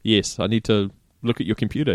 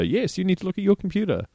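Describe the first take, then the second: First: Said in the usual way. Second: Higher-pitched mimicking echo; parroting back. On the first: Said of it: "repeat everything they say back". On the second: Winding up the scammer by repeating them, mocking echo. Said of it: "repeat everything they say back to you".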